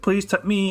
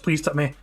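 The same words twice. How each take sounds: First: The voice rises at the end. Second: The voice falls at the end. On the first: It sounds like more is expected. The speaker calls it wrong. "with a kind of inflection going up a bit" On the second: The sentence is finished. The speaker calls it right. "a sentence finishing"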